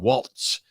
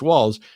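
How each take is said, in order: First: It ends with a t before the s. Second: It ends with no t before the s. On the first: The speaker calls it wrong. "you're really tempted to do Waltz" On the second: The speaker calls it right. "But it's just Walls"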